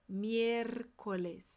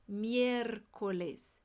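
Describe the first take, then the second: No difference in how they are said.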